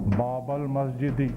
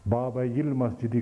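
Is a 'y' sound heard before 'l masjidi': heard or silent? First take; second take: silent; heard. First: The y sound is dropped before the article. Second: A y sound is heard before the article. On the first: It sounds like the nominative form. The speaker calls it wrong. "अगर इसको साइलेंट करके बाबल करें" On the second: It shows the word ends in ya. The speaker calls it right. "इसको मिला मुतहर्रिक करके, ताकि पता लगे कि या है"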